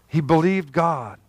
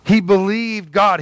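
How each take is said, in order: First: Said in the usual way. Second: Slow and a bit louder, leaning on "He believed God"; emphatic repeat. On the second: Shown as a demonstration. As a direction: press every word, slow, a touch louder.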